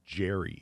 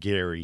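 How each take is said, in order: First: The name begins with a soft j sound. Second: The name begins with a hard g sound.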